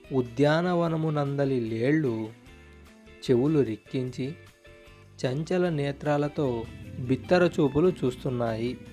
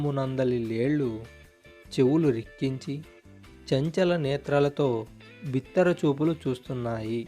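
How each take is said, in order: No difference in how they are said.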